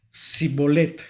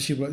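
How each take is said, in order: First: The word begins with an 's' sound. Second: The word begins with a 'sh' sound. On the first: The speaker is revealed as an Ephraimite. "sino que pronunciaban la palabra sibolet" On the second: The speaker passes as a Gileadite. "la sh de S H"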